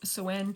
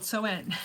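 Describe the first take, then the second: First: It is said with an Irish Gaelic pronunciation. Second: It is said with an anglicized pronunciation.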